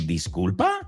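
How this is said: It sounds indignant and questioning. The listener is offended by what was said. "Like, what did you just say? Are you kidding me?"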